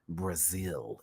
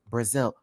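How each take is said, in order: First: The word is said dramatically with extra flair. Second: The word is said plainly and flatly. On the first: The speaker calls it right. "Brazil deserves to have that extra" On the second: The speaker calls it wrong. "You just can't say Brazil"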